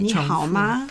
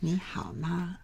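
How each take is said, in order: First: It is said in an excited, lively way. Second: It is said in a soft, light way.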